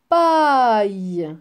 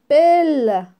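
First: The vowel is an 'eye' sound ending in y. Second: The vowel is a plain 'eh' sound. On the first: The speaker calls it right. "on le prononce aïe" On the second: The speaker calls it wrong. "A I, c'est E. On va dire pelle. Non plus"

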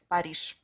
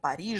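First: The final consonant is voiceless, like 'sh'. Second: The final consonant is voiced, like 'zh'. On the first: The speaker calls it right. "On doit prononcer comme ch" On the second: The speaker calls it wrong. "on veut vraiment prononcer comme Paris. Je. Ça, c'est pas correct"

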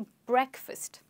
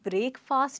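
First: The stress is on the first syllable. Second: The stress is on the second syllable. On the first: The speaker calls it right. "Stress रहेगा ए पे" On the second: The speaker calls it wrong. "इसको हम breakfast नहीं कहते हैं"

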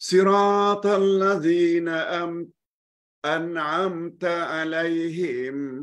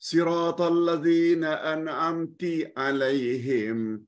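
First: The word an'amt ends with an a vowel. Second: The word an'amt ends with an i vowel. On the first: The one addressed is male. The speaker calls it right. "An'amta engkau" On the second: The one addressed is female. The speaker calls it wrong. "An'amti bermakna engkau perempuan"

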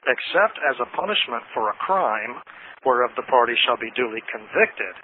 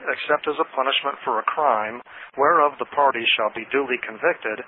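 First: Key words are read with strong emphasis. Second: It is read evenly without special emphasis.

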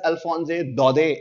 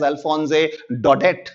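First: The final t of the surname is silent. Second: The final t of the surname is pronounced. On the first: "why am I pronouncing the name as" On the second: "and not as"

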